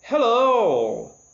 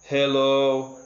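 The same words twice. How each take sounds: First: It is said lively and energetic. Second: It is said flat and lifeless.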